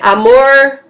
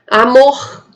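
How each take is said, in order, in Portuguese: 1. O R final se pronuncia como no interior. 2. O R final se pronuncia como no Rio. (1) "aqui no interior" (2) "no Rio de Janeiro"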